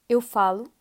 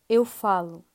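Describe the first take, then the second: No difference in how they are said.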